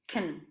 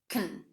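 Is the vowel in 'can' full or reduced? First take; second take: reduced; reduced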